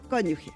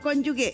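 First: The g sounds like Spanish j. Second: The g is a hard g sound. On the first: The speaker calls it right. "Y no es así, es G" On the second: The speaker calls it wrong. "No cónyuge. Si fuera cónyuge, se escribiría G-U-E"

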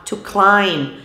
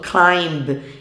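First: The b at the end is silent. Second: The b at the end is pronounced. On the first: The speaker calls it right. "o B não é pronunciado" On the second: The speaker calls it wrong. "Muitos alunos acabam falando climb, e isso é errado"

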